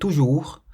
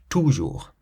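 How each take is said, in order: First: The stress is on the last syllable. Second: The stress is on the first syllable. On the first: The speaker calls it right. "stressing the last part of the word" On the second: The speaker calls it wrong. "rather than toujours"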